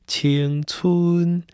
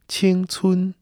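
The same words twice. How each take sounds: First: The pitch goes from lower to higher. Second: Both syllables stay on the same high pitch. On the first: This is how it sounds with tone change. "它就会从低到高" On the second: This is how it sounds without tone change. "如果没有变调的话，它应该是青春"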